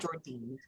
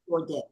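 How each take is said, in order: First: The name ends with a long 'deen' sound. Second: The name ends with a short 'dan' sound. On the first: The speaker calls it wrong. "it's not Jordine" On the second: The speaker calls it right. "It's Jordan"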